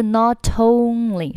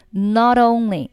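First: "not only" with a hard aspirated t, as not-tonly; unvoiced linking t. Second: "not only" with the t softened to a d; voiced linking t. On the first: Teacher shows learners the wrong link, hard t in "not only". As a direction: puff a crisp t into only in "not only". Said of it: "不是，不是". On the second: Teacher corrects the link, t voiced like d in "not only". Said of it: "要浊化一下". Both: Shown as a demonstration.

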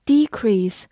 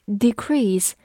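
First: Decrease as a noun, stress on DE-. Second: Decrease as a verb, stress on -CREASE. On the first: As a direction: hit the front of decrease: DE-crease. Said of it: "decrease是名词形式的减少". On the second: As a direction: hit the back half of decrease: de-CREASE. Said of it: "decrease就是动词形式的". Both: Shown as a demonstration.

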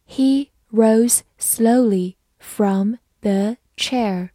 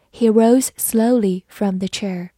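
First: "He rose slowly from the chair" word by word; slow reading. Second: Said in the usual way. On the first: Shown as a demonstration. Teacher reads the sentence for learners to follow, slow reading. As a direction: read very slowly, pausing after every word. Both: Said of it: "好，慢慢来读".

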